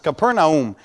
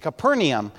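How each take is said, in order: First: No extra 'ay' vowel is heard mid-word. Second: An extra 'ay' vowel is heard mid-word. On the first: The speaker calls it right. "It's Capernaum" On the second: The speaker calls it wrong. "they say Capernaum. He said, I don't understand why they say Capernaum. There's not an I in it"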